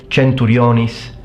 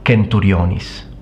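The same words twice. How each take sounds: First: The word starts with a ch sound. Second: The word starts with a k sound. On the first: This is the church style of Latin. "it will be pronounced as a ch" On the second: This is the ancient Roman style of Latin. "in classical Latin it's always pronounced as a k"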